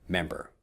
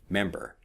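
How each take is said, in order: The two takes are said the same way.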